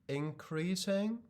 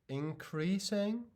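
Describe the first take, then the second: No difference in how they are said.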